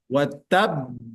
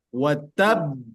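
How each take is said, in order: Both takes have the same delivery.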